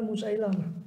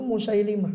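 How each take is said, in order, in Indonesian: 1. Suku kata ketiga memiliki vokal 'a'. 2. Suku kata ketiga memiliki vokal 'i'. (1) "lebih terkenal Musailamah" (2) "pengucapan yang betul itu Musailimah"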